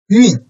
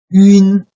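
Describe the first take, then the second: First: The pitch falls sharply from high to low. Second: The pitch stays high and level.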